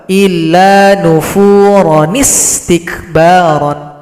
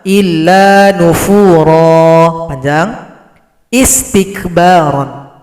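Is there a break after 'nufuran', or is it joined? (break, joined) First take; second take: joined; break. First: It runs straight into the last word without stopping. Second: It stops on a long vowel before the last word. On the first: "Cara baca kedua" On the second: "Itu kesimpulan cara baca pertama. Illa nufura, panjang"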